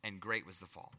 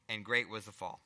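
First: Quieter "great" stressed, lower and grave; "great" weighted, low and hushed; emphasis on great. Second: "great" stressed, lower and firm; "great" given weight, low and grave; emphasis on great. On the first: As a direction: softly lean on "great" in "And great was the fall". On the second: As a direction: lean on "great" in "And great was the fall". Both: Shown as a demonstration. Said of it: "That's the emphasis".

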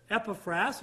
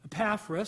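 First: Epaphras as EP-uh-frass, first syllable stressed; first pronunciation. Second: Epaphras as uh-PAFF-russ, second syllable stressed; alternative pronunciation. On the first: Preacher naming the sixth man, Epaphras said EP-uh-frass. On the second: Preacher offering another way some say it, Epaphras as uh-PAFF-russ. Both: Shown as a demonstration. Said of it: "some pronounce it that way".

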